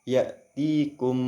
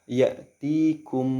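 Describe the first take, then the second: The two takes are said the same way.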